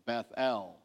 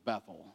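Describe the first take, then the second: First: The last syllable is a full, distinct 'El'. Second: The last syllable is reduced and blended in. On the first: "say Beth-El" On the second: "like we tend to pronounce as Bethel"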